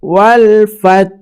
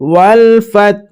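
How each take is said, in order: No difference in how they are said.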